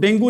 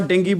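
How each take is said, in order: First: The word ends with an oo sound. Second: The word ends with an ee sound. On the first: The speaker calls it wrong. "आज के बाद आपने इसको डेंगू नहीं बोलना" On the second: The speaker calls it right. "डेंगी बोलना है"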